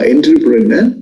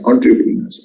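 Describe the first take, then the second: First: The word is pronounced the way it is spelled. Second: The word is pronounced differently from its spelling. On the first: The speaker calls it wrong. "as though we are writing is uh, entrepreneur" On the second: The speaker calls it right. "the correct way of pronouncing is entrepreneurs"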